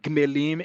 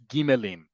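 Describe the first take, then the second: First: The g runs straight into the m. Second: A short vowel separates the g and m. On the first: The speaker calls it wrong. "It's not gmelim" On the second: The speaker calls it right. "it's gimelim"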